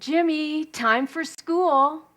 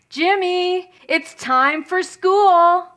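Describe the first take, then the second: First: It is called at a softer volume. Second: It is called at a louder volume.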